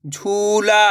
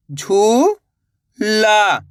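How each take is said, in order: First: झूला joined, long vowels; blended word. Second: झू, long pause, ला; झूला split slowly, rising then falling; syllable by syllable. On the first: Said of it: "तो मिलके बन जाएगा". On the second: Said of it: "एक अक्षर का उच्चारण करना है". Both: Shown as a demonstration.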